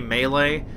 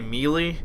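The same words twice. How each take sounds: First: The word is said in the standard way. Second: The word is said in a regional way. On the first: This is the pronunciation people are supposed to use. "I guess you're supposed to say melee" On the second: This is the local way people say it. "I always tend to say melee, and I think most people, at least where I'm from, say melee"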